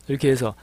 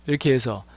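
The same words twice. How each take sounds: Both takes have the same delivery.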